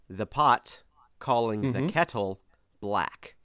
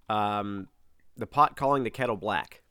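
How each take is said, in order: First: It is said at a slower pace. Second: It is said at a normal, quicker pace.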